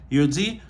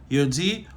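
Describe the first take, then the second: The two takes are said the same way.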